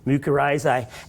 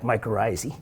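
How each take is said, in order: First: It is pronounced in a classical Greek-Latin style. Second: It is pronounced in an everyday English style. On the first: This is how it is really pronounced. "you throw on the Latin diphthong" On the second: This is how most people say it. "They're going to say something like"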